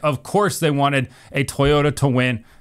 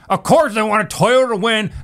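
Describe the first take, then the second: First: It is said in the speaker's normal voice. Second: It is said in a put-on stereotypical voice.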